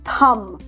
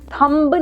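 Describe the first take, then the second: First: The final b sound is silent. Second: The final b sound is pronounced. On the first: The speaker calls it right. "इसको हम English में बोलते हैं थम" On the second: The speaker calls it wrong. "थंब नहीं"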